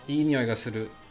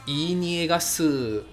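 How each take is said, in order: First: It is said in a standard accent. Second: It is said in a Kagoshima accent.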